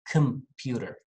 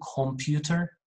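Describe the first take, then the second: First: The first vowel is a weak schwa. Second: The first vowel is a full, clear vowel. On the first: The speaker calls it right. "I'm saying computer" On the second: The speaker calls it wrong. "I'm not saying computer"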